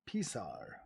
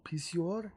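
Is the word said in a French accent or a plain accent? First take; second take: plain; French. First: It is said in a plain, unaccented way. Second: It is said in a put-on French accent.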